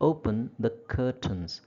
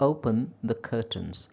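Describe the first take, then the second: No difference in how they are said.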